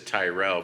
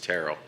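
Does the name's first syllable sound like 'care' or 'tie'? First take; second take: tie; care. First: The first syllable does not rhyme with Carol. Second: The first syllable rhymes with Carol. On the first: The speaker calls it wrong. "everybody says Tyrell" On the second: The speaker calls it right. "but it's Terrell"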